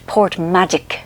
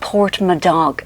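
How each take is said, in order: First: The name ends with a k sound. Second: The name ends with a hard g sound. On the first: It is said the way locals say it. The speaker calls it right. "but it's pronounced Portmadoc, I believe" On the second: It is said the way it is spelt. The speaker calls it wrong. "It's not pronounced that. It's spelt that way"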